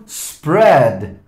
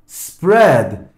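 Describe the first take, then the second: Both takes have the same delivery.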